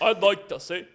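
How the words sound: It is said in the Costco guy's deep voice.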